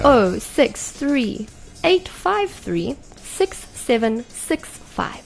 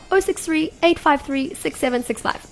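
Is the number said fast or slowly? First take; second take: slowly; fast. First: The number is said slowly. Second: The number is said fast.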